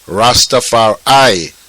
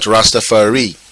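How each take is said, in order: First: The last syllable sounds like 'eye'. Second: The last syllable sounds like 'ree'. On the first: This is the changed form used by the movement. "they changed the, the, the last syllable, re, to I. So it became Rastafari" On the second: This is the original Amharic form. "and not Rastafari"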